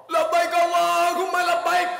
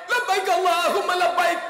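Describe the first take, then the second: No difference in how they are said.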